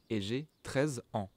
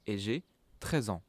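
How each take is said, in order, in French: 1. Treize et ans sont des mots séparés. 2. Treize et ans forment un seul mot. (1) "you don't say" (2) "As if treize ans was o- was only one word"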